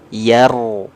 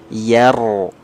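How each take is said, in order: Both takes have the same delivery.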